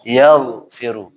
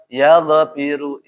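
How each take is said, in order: First: The gh sound is held without a vowel. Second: The gh sound bounces with an added vowel. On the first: The speaker calls it right. "Ditahan ya" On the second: The speaker calls it wrong. "bukan mantul"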